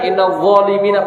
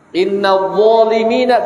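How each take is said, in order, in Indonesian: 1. Konsonan bersuara itu diucapkan dengan lemah dan tidak jelas. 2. Konsonan bersuara itu diucapkan dengan jelas dan penuh.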